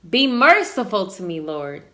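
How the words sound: It is said with a commanding, authoritative tone.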